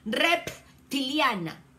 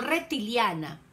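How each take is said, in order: First: The word is said with a clear P sound. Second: The word is said without a clear P sound. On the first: The speaker calls it right. "sino rep, con P" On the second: The speaker calls it wrong. "no reptiliana"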